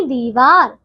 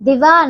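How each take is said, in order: First: दीवार said dee-vaar; long first vowel. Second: दीवार said di-vaar, short i; short first vowel. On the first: Teacher correcting pupils, दीवार with long dee. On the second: Teacher showing wrong दीवार, short di. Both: Shown as a demonstration. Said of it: "दीवार नहीं दीवार".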